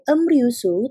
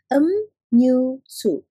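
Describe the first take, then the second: First: The middle consonant is an R sound. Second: The middle consonant is an N sound. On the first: The speaker calls it wrong. "tidak dibacanya sebagai emryusu" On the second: The speaker calls it right. "tetapi dibacanya sebagai emnyusu"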